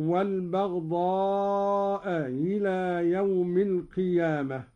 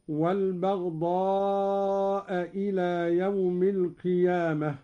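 First: والبغضاء إلى with the second hamza softened between hamza and h; Qalun eased hamza. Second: Said in the usual way. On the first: Shown as a demonstration. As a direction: glide from والبغضاء into إلى with a half-h, not a full glottal stop. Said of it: "فلا هي همزة ولا هي هاء". (تسهيل الهمزة بين الهمزة والهاء) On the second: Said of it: "قرأ قالون بتسهيل الهمزة الثانية".

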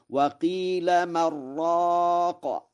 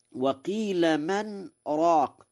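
First: Slow high chant, "من راق" as mar-raaq; n merged into ra. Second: Slow high recitation, "من" kept apart from "راق"; pause after man. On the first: Teacher models Warsh's chant, "من راق" run together as mar-raaq. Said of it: "فيقرأ هكذا". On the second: Teacher quotes the verse, reciting "من راق" with a short silent break. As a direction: stop briefly on the n of "من" before "راق". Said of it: "والسكت وعدمه مبني على الرواية". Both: Shown as a demonstration.

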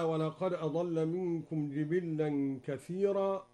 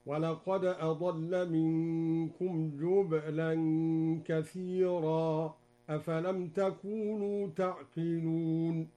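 First: Said in the usual way. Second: Slow chanted recitation with جبلا said jubla; Duri reading, recited. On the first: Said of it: "قرأ الدوري بضم الجيم وإسكان الباء". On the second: Shown as a demonstration. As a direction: jubla with u on the jim and a silent ba. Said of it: "هكذا". (جبلا بضم الجيم وإسكان الباء بترتيل)

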